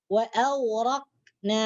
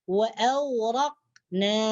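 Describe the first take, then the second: Both takes have the same delivery.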